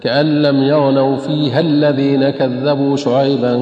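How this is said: Fiha runs straight into the next word. "أن نصلها ... تقرأ هكذا"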